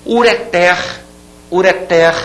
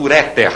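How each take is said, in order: First: "Ureter" with a higher, strong final TER; stress on last syllable. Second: "ureter" stressed on RE, falling off on ter; mistaken stress. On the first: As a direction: land hard on the end of "ureter". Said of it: "É uma palavra oxítona". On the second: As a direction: put the weight on the middle of "ureter". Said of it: "Não se diga, portanto". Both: Shown as a demonstration.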